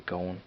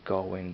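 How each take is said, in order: First: "going" run together like "gone"; G left off "going". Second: "going" with the final -ing sounded; full "going". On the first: Showing their own Dublin habit, "going" without the G. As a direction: drop the final G of "going". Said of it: "I leave out the G at the end". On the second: Showing what they're supposed to say, "going" with the G. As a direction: say "going" complete with its G. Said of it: "I know I'm supposed to say". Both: Shown as a demonstration.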